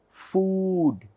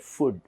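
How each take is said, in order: First: The vowel is a long oo. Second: The vowel is short. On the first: The speaker calls it right. "but this should be pronounced as food" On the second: The speaker calls it wrong. "We all say food"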